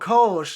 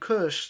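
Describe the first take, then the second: First: The word is said with an American pronunciation. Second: The word is said with a German pronunciation. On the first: The speaker calls it wrong. "You're saying it wrong" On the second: The speaker calls it right. "it's also a German beer"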